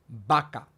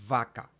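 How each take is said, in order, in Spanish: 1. Empieza con sonido b, con los labios juntos. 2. Empieza con sonido v, con el labio sobre los dientes. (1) "decimos vaca" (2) "cuando en realidad debería ser vaca"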